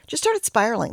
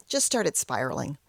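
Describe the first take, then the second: First: Started punched higher and louder; emphatic repeat. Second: Said in the usual way. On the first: Shown as a demonstration. Repeating her spiral to the viewers, louder on started. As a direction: hit started hard the second time.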